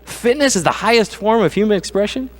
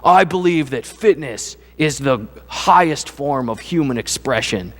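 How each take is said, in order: First: Higher, disbelieving question; incredulous repeat. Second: Slow, earnest TV fitness guy; imitating fitness guy. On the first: Retold or imitated. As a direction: echo the claim in mocking disbelief. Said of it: "Boy, that's idolatry, isn't it?". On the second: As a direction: lightly mimic a pumped-up trainer's grand claim, slowly. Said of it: "he looks right at the camera and he goes".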